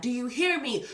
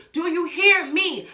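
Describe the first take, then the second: First: Said in the usual way. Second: Higher, louder, slow and pleading; insistent loud repeat. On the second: Real, not acted. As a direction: demand they really listen. Asks listeners, then repeats insistently.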